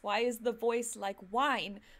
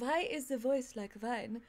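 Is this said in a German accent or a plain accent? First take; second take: plain; German. First: Plain accent, with a normal W sound. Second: German accent, with the W sounding like V. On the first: "And it's" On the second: "he kept saying"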